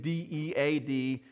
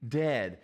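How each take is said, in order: First: Each letter of D E A D set apart, slow; spelled out letter by letter. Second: Said in the usual way. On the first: Shown as a demonstration. Pastor spelling out dead to the congregation, slow letters. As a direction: spell D E A D slowly, one letter at a time.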